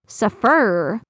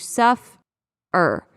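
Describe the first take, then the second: First: The stress is on the second syllable. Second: The stress is on the first syllable.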